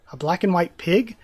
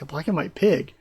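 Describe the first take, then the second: First: Curious question rising at the end; puzzled question. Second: Flat statement falling at the end; deadpan retelling. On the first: Acted. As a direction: ask it wondering what it is. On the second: Retold or imitated. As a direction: say it blankly, unimpressed. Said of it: "He's just like".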